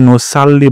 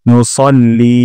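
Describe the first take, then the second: First: The middle syllable has a light, open 'sa' sound. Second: The middle syllable has a heavy, rounded 'so' sound. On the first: The speaker calls it wrong. "এখানে নুসাল্লি বলা যাবে না" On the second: The speaker calls it right. "সাল্লির জায়গায় বলবো সল্লি এবং লিতে একালি টান দিব"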